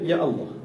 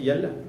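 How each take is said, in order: First: A glottal stop separates ya and Allah. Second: Ya runs straight into Allah without a stop. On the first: The speaker calls it right. "Contohnya ya, ya Allah" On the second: The speaker calls it wrong. "Tak ada macam yalah"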